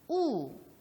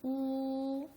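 First: The pitch falls sharply from high to low. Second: The pitch stays high and level. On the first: "제4성" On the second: "제1"

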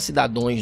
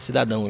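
First: The word ends with the sound 'ões'. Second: The word ends with the sound 'ãos'. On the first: The speaker calls it wrong. "Acho que não é cidadões" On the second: The speaker calls it right. "É cidadãos, né?"

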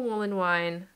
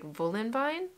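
First: The name starts with an English W sound. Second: The name starts with a V sound. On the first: The speaker calls it wrong. "I'm saying it wrong" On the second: The speaker calls it right. "they pronounced the WV"

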